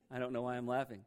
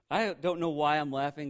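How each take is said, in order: First: Said in the usual way. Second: Laughing at yourself; sheepish real laughter. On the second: Real, not acted. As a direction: still chuckling, a bit louder.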